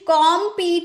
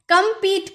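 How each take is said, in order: First: The first vowel is an open 'aw' sound. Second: The first vowel is a short 'uh' sound. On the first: The speaker calls it wrong. "कॉम्पीट नहीं बोलेंगे" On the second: The speaker calls it right.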